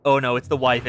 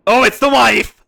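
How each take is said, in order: First: Said in the usual way. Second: Louder, exclaimed recognition; excited realisation. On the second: Real, not acted. Gamer recognising the wife on screen, exclaiming. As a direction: blurt it out as she appears.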